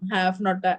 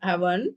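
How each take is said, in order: First: It is said as two full words. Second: It is said as one contracted word.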